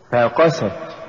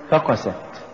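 First: فقست with the ف set apart and the ق pushed; push after fa. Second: فقست run together as one root, softer; wrong stress. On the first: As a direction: lean on قست, keeping ف a light prefix in فقست. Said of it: "قل". (نطق فقست بدفع القاف بعد الفاء) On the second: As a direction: say فقست quickly with the weight on ف. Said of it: "تصبح كأنها من الفقس". (نطق فقست ككلمة واحدة من الفقس) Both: Shown as a demonstration.

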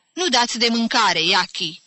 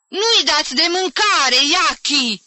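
First: Stern reproach, voice kept in check; harsh. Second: High, loud shout across the yard; angry yell. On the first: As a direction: rebuke the aunt sharply without shouting. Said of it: "vorbi aspru Jim către bătrâna". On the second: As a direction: yell the accusation in a fury. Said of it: "țipă el în mijlocul curții". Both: A narrator's reading.

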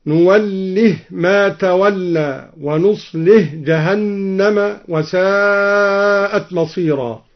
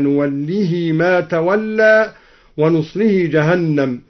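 First: نوله and نصله read with the هـ vowelless, nuwallih, nuṣlih, slow; نوله and نصله with sukun on the هـ; silent h endings. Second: Said in the usual way. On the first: Shown as a demonstration. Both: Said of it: "بإسكان الهاءين هكذا".

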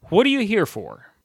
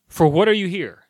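First: "What are you here for?" with weight on final "for"; stress on FOR. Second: "For what" pushed out loud and high, falling on "here"; loud, careful "For what are you here?"; proper phrasing. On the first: Vlogger showing viewers a sentence ending in a preposition, stress on "for". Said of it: "ending on a preposition". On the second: Vlogger showing viewers the proper way, "For what" stressed. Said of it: "the proper way is". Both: Shown as a demonstration.

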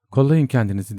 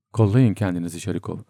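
First: Raised, urgent warning shout; mild narrated yell, pitched up; cry after someone. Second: Said in the usual way. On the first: A narrator's reading. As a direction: call the warning out after them. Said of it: "arkasından uçtu Bormentel'in çığlığı".

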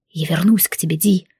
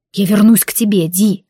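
First: Unvoiced whisper, low; whispered vow to come back; whispered promise. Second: Тебе pressed hard and firm; firm vow stressing тебе. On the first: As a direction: whisper it into her ear. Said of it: "прошептал он". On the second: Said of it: "повторил жёстко, сделав напор на слово «тебе»". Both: A narrator's reading.

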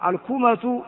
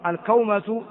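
First: الكومة said al-kūmatu, with a long u; vowel u. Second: الكومة said al-kawmatu, with an aw glide; vowel a. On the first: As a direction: say الكومة as al-KOO-matu. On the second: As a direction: say الكومة as al-KOW-matu. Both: Shown as a demonstration. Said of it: "بفتح الكاف وضمها".

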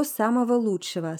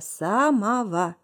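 First: Said in the usual way. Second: Самого drawn out syllable by syllable; самого in slow, separated beats; emphatic repeat. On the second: Acted. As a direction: stretch each syllable of самого slowly.

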